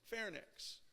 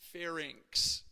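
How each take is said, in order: First: The word ends with a 'nix' sound. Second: The word ends with an 'inx' sound. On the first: The speaker calls it wrong. "it's not nix" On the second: The speaker calls it right. "it's inx"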